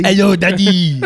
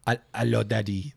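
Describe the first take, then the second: First: Loud, high, hammed-up French accent. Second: Put-on low, soft French-accented greeting. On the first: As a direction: belt out a mock French greeting, laughing. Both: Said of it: "they have a French accent".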